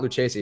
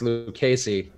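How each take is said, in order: First: The middle consonant is a soft ch sound. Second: The middle consonant is a hard k sound. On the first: The speaker calls it wrong. "It's not" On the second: The speaker calls it right. "it's a strong K"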